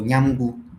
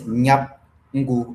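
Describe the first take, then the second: First: An m sound comes before ngu. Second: A p sound comes before ngu.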